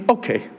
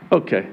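First: Okay raised and dropped, shrugging; dismissive okay. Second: Okay low and falling, resigned; flat okay. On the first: Pastor shrugging off critics, dismissive. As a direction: brush it off. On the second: Pastor shrugging off critics, resigned and low. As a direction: let it drop low. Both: Real, not acted. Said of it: "dismissive repeat".

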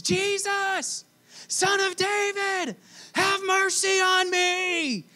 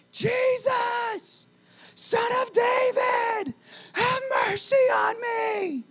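First: High, slow pleading call. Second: High, slow desperate shout; louder cry. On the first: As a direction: cry out to him from the roadside. Blind man calling to Jesus. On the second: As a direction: shout over the crowd, pleading. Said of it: "He gets louder". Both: Acted.

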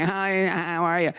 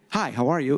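First: Slow, nasal "Hi, how are you?" pushed up into the nose; nasal greeting. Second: Said in the usual way. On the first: Retold or imitated. Recalling a date who talked up in her nose, slow nasal hello. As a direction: greet through the nose, drawn out. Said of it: "talk, I guess, up in your nose". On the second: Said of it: "We don't introduce ourselves with our blood type".

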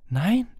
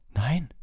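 First: Emphatic no, high and louder; Harry. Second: Simple denial. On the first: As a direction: deny it firmly, pitch jumping up. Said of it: "sagte Harry nachdrücklich". (nachdrückliches Nein, hoch und laut) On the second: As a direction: answer no without forcing it. Boy's first denial, simply said. (schlichtes Nein, hohe Stimme) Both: A narrator's reading.

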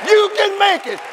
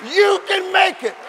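The two takes are said the same way.

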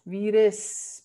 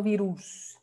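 First: Virus ending in a short weak "es", "vee-res"; correct Dutch version. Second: Virus with a clear "oo", "vee-roos"; wrong Spanish version. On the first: Teacher correcting "virus" to Dutch, ending in short "res". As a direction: say "virus" with a reduced final vowel. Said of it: "porque es una U". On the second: Teacher rejecting the learners' "virus", ending in "oos". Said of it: "No virus". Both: Shown as a demonstration.

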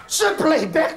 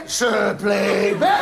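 First: Said in the usual way. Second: Drawn-out slow exclamation. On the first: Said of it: "Nou gaat het iets te vlug". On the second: Acted. Comic partner drawing out the punchline very slowly. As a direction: drag every syllable out for comic effect.

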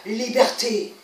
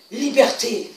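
The two takes are said the same way.

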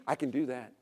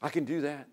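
First: "do" leaned on, falling; stress on do. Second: "can" leaned on, falling; stress on can. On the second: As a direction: hit "can" as if proud of it. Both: Shown as a demonstration. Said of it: "Can you see the arrogance of that?".

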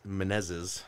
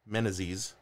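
First: "Menezes" as muh-NEZ-iz; tentative pronunciation. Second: "Menezes" as MEN-uh-zeez; alternative pronunciation. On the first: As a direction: stress the middle of "Menezes", short e. Trying out a surname's pronunciation. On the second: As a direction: stress the start of "Menezes", ending in zeez. Second attempt at the surname. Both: Shown as a demonstration.

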